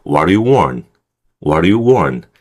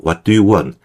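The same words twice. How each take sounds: First: "what do you want" as WA-ru-yu WAN; reduced linking. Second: "what do you want" word by word; slow careful reading. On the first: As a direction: model "what do you want", weak middle, stressed "want". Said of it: "따라 해보세요". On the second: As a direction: read "what do you want" slowly, every t pronounced. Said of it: "천천히 읽으면". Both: Shown as a demonstration.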